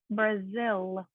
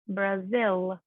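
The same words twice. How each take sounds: First: The final L is pronounced strongly. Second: The same.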